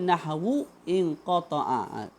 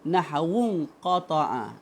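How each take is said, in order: First: A stop, then the glottal stop is pronounced. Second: Words run together without the glottal stop. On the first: "Kalau kita berhenti nahwu in qata'a, datang balik hamzah tu" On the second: "Kalau kita sambungkan maka jadi nahwun qata'a. Waw tu terus bertemu dengan nun. Hamzah tu hilang"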